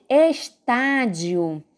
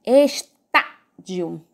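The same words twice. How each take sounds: First: Said in the usual way. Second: "Estádio" very slowly as es-TÁ-dio, with breaks and a punched TÁ; syllable by syllable. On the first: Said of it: "Agora vamos falar de estádio". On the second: Shown as a demonstration. Teacher breaking a word up for students, slow "Estádio" stressed on TÁ. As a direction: split "Estádio" into syllables, hitting TÁ. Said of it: "o tá é a antepenúltima".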